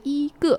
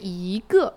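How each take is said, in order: First: The first syllable has a high level tone. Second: The first syllable has a rising tone. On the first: The speaker calls it wrong. "You don't say 一个" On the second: The speaker calls it right. "you say 一个, right?"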